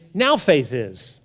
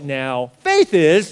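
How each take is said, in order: First: 'Now faith' is said joined, without a break. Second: There is a break after 'now'.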